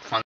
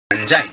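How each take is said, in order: First: The middle consonant is a hard g. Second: The middle consonant is a j sound. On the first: The speaker calls it wrong. "Not ফাঙ্গি" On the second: The speaker calls it right. "এর actual উচ্চারণ কিন্তু ফানজাই"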